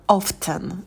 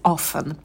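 First: The t sound is pronounced in the middle. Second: The t sound is left out in the middle. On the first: "иногда его произносят как often, звук «т» тоже может быть" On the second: "я привыкла говорить often"

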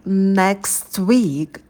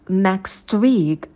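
Both takes have the same delivery.

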